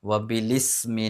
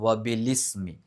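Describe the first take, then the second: The two takes are said the same way.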